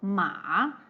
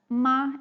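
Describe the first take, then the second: First: The syllable is said with the third tone. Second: The syllable is said with the first tone. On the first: It means horse. "the third tone ma, it means horse" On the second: It means mom. "Like the first tone, it means ma, it means mom"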